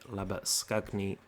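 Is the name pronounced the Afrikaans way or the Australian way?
Afrikaans. The name is said with an Afrikaans pronunciation. This is how it probably should be pronounced. The speaker calls it right. "I'm going to try and go with"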